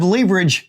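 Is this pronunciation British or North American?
British. It is said the British way.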